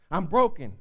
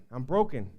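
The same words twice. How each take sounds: First: Said in the usual way. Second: Low broken. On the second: Acted.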